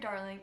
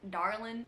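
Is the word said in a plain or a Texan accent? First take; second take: plain; Texan. First: The word is said in a neutral accent. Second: The word is said in a Texan drawl.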